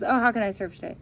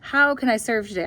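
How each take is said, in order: First: It is said casually, without real interest. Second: It is said sincerely, with real interest.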